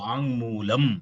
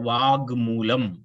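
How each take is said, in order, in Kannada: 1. 'mulam' ಮುಂಚೆ ಅನುನಾಸಿಕ ng ಧ್ವನಿ ಇದೆ. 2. 'mulam' ಮುಂಚೆ ಸಾದಾ g ಧ್ವನಿ ಇದೆ.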